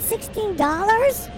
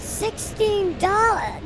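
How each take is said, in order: First: Higher, outraged disbelief; shocked. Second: Slow, flat price call; a bored stadium vendor reading the price. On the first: Real, not acted. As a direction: balk at the price, rising. Shocked at the price. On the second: Acted. Voicing the beer vendor.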